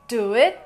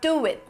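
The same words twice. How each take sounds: First: The two words are said without a W glide. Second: A W sound joins the two words. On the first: The speaker calls it wrong. "instead of saying do it" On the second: The speaker calls it right. "you would say do it ... So there is a W sound"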